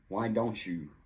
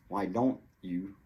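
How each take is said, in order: First: The T and Y blend into a ch sound. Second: The T is cut off as a stop. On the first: "The T C H sound just naturally appears" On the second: "you can do the stop T"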